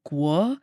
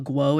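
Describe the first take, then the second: First: The name is said with a Mandarin pronunciation. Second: The name is said with an English pronunciation. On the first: The speaker calls it right. "The um Mandarin pronunciation, ... it's more like guo" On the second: The speaker calls it wrong. "so it's not like a guo"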